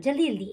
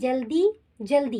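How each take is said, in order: First: The two words run together without a pause. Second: The two words are said apart with a pause. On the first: The speaker calls it right. "एक साथ" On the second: The speaker calls it wrong. "ऐसे नहीं बोला"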